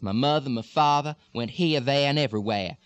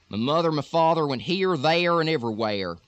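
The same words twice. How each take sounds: First: Deep South accent, with the R sounds dropped. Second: Texas accent, with the R sounds strongly pronounced.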